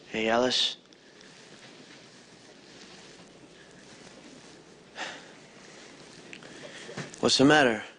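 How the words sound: It is said in a natural, subdued voice. The speaker calls it right. "I want to hear you do this character with your voice"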